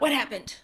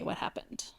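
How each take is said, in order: First: It is asked in a sharp, accusing tone. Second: It is asked in a calm, open tone. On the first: The speaker already blames the listener. The speaker calls it wrong. "Not what happened, which I've done several times" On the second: The speaker genuinely wants to hear the explanation. The speaker calls it right. "But if you're like, okay"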